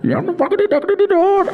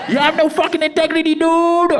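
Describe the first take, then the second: First: Very high, fast mock screech; angry voice note. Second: Very high mock yell of the buyer; angry voice note. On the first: Replaying the buyer's voice note, high mock yell. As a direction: squeal it like the furious buyer. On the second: Angry buyer in the voice note, high mock yell. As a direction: shriek it like a furious buyer.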